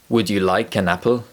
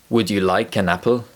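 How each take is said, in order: First: It is natural, with an linked into apple. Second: The same.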